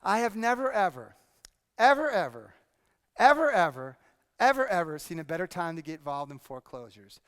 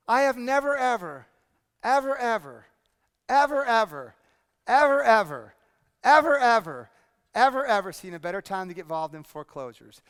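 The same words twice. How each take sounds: First: A run of evers, rising slightly; repeated ever demo. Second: Each ever louder, stacked up; building repeated ever. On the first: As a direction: stack the evers for effect. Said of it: "Watch very closely and see if you get it". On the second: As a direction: pile up the evers, getting louder each time. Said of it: "watch me very closely and see if you picked up why". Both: Shown as a demonstration.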